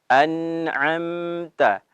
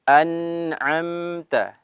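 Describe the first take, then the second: No difference in how they are said.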